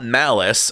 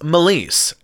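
First: The name sounds like the word malice. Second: The name ends like the word lease. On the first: The speaker calls it wrong. "It's not Malice, as in my boss has malice for the receptionist" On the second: The speaker calls it right. "It's Malise, as in Malise is up next month"

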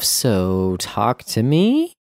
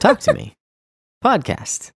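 First: The voice rises at the end like a question. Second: The voice falls at the end like a statement.

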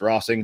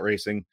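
First: The first vowel sounds like 'ah'. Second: The first vowel sounds like 'ay'. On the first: The speaker calls it right. "It's Rossing, that's how we think it should be pronounced" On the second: The speaker calls it wrong. "not racing"

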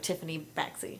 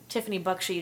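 First: The surname is said with a plain 's' sound. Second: The surname is said with an 'sh' sound. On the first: The name sounds cooler and harder to place. The speaker calls it right. "I love pronouncing it Baxi because it just sounded cooler" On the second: The name sounds odd and out of place. The speaker calls it wrong. "Tiffany Bakshi just sounds odd, out of place"

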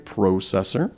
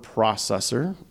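First: It is said with a Canadian accent. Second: It is said with a non-Canadian accent.

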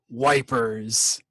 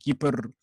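First: It begins with a w sound, like 'wipers'. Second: It is said with a Belgian-Dutch pronunciation. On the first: This is how British soldiers said it. The speaker calls it wrong. "if you're a dumbass British soldier" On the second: This is how Dutch-speaking Belgians say it. The speaker calls it right. "the Belgian-Dutch pronunciation is more correct, which would be more like Yper"

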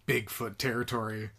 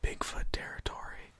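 First: It is said in a normal voice. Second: It is said in a whisper.

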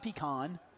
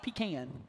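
First: It is said the non-Southern way. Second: It is said the Southern way. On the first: The speaker calls it wrong. "not pecan" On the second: The speaker calls it right. "We're in the South"

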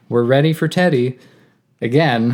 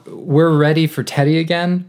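First: There is a pause after Teddy, sounding sarcastic. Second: It runs straight through without a pause.

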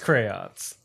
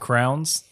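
First: The word is said in two syllables, like crayons. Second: The word is squeezed into one syllable, like crowns. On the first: The speaker is using the standard form. "I know it's crayons" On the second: The speaker is talking naturally, without trying to impress. "I'm from the South"

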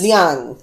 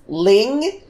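First: The name is said with a gliding 'yahng' sound. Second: The name is said with a short 'ing' sound. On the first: The speaker calls it right. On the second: The speaker calls it wrong. "what I thought was pronounced as"

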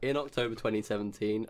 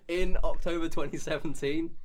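First: It sounds somber and serious. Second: It sounds cheerful and upbeat.

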